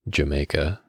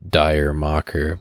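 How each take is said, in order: First: It sounds like the single word 'Jamaica'. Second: It sounds like the two words 'dire mocker'. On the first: The speaker calls it right. "you say it like Jamaica" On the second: The speaker calls it wrong. "you would think it's pronounced Dire Mocker, but that's incorrect"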